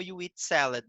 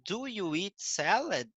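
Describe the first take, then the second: First: "You eat salad" stated, falling on "salad"; "You eat salad" brisk and declarative, ending down; statement intonation. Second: "Do you eat salad?" slow, lifting on "salad"; "Do you eat salad?" as a drawn-out teacher's model question; question intonation. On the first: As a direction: say "You eat salad" as an affirmation, no questioning lift. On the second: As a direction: ask "Do you eat salad?" with a clear questioning swing at the end. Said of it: "a entonação". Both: Shown as a demonstration.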